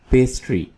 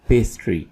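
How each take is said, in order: Both takes have the same delivery.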